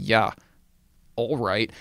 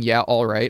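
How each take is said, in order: First: It sounds sarcastic and doubtful. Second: It sounds sincere and agreeing. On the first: I don't believe you at all. "I'm saying, ... that was sarcasm" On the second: I agree and trust you. "I'm not saying"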